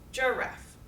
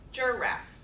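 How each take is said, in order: First: The stress is on the first syllable. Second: The stress is on the first syllable.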